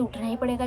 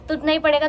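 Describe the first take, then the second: First: Said in the usual way. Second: पड़ेगा stressed, louder and higher; firm emphasis. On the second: Real, not acted. Telling viewers she must wake early, firmly stressing पड़ेगा. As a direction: insist on पड़ेगा with resolve.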